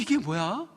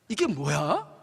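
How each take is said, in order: First: It sounds curious and surprised. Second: It sounds annoyed and fed up. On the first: Something new and wonderful has appeared. "아, 뭐 먹을 게 내려 있는 거예요" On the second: The same thing again, and they are tired of it. "한 달이 지나는데 억양이 바뀝니다"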